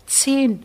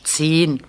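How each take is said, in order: First: Said in the usual way. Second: Lower, dismissive zehn; condescending. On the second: A narrator's reading. Janusz mocks the younger boy's answer, condescending. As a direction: say zehn as if talking down. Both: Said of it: "Das klingt sehr von oben herab".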